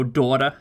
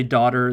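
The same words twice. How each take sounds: First: Put-on daughter with a Jewish accent. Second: Said in the usual way. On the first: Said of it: "a Jewish accent where it's like". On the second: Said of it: "anytime they say daughter".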